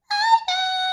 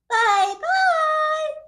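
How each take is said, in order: First: It is said in a high squeaky voice. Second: It is said in a middle-pitched voice.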